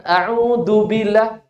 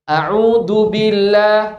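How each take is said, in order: First: "A'udhu" said slowly, stressing the wrong du sound; slow "A'udhu billah" leaning on the du; wrong letter again. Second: "A'udhu" said slowly with the plain dal sound; slow "A'udhu billah" with the wrong dal; wrong letter. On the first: Teacher repeating the wrong du sound as a warning. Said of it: "bukan du". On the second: Teacher showing the students a mispronounced letter. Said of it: "dia membaca bagaimana". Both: Shown as a demonstration.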